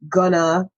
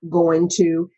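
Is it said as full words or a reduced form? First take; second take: reduced form; full words. First: The words are run together into a reduced form. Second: Each word is pronounced fully and separately. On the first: It sounds like a regular person talking. The speaker calls it right. "start to make contractions and say gonna" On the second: It sounds precise and rehearsed. The speaker calls it wrong. "not going to"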